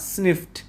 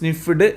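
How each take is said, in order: First: The word ends with a voiceless T sound. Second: The word ends with a voiced D sound. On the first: The speaker calls it right. "അവസാനം ടി എന്ന് കൂട്ടിയാണ് നമ്മൾ ഉച്ചരിക്കേണ്ടത്" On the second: The speaker calls it wrong. "സ്നിഫ്ഡ് എന്നല്ല"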